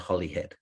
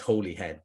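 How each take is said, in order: First: The first vowel is short, like 'holly'. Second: The first vowel is long, like 'holy'. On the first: This is how locals say it. "we say Hollyhead" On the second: This is how the spelling suggests it. "even though it is Holyhead"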